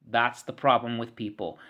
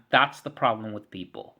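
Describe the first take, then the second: No difference in how they are said.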